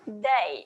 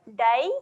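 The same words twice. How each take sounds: First: The D is pushed against the back of the teeth. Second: The D is a plain D, not against the teeth. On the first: The speaker calls it right. "tapi dai" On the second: The speaker calls it wrong. "bukan dai"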